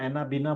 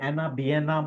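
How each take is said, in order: First: The middle vowel is a long 'ee' sound. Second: The middle vowel glides as 'ya'. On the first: "या एनाबीना बोलो" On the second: "मैं इसको एनाबियना ही बोलता हूँ"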